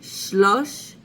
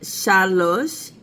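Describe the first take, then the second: First: The first vowel is reduced to a schwa. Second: The first vowel is a full vowel. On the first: This is the shortened form used with hundreds. "the first vowel gets shortened to a schwa" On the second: This is the normal form of the number. "Instead of shalosh"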